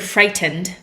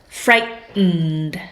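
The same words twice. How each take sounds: First: The T and final syllable are fully pronounced. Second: The T is swallowed and the ending is 'nd'. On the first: "in some Englishes, you might hear frightened" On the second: "we usually swallow this last whole bit and say "nd.""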